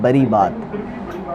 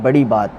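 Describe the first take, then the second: First: The r sound is pronounced in a distorted way. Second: The r sound is pronounced clearly and normally. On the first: The speaker calls it wrong. "इनके मुंह से वो रे सही नहीं निकलता, ये कहते हैं" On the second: The speaker calls it right. "रे हम कहते हैं बड़ी बात"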